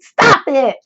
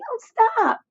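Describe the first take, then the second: First: It is said firmly and forcefully. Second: It is said weakly and timidly.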